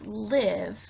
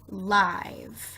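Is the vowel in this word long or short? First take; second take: short; long. First: The vowel is a short i sound. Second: The vowel sounds like the letter name I. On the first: "just means to make the short sound" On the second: "we're going to make the I say I because of the E"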